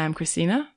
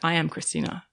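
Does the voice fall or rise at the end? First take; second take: rise; fall. First: The voice rises at the end. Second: The voice falls at the end. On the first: It sounds like a question, without owning it. The speaker calls it wrong. "That's a question" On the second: It sounds grounded and owned. The speaker calls it right. "There's no planting, there's no grounding. It's not like"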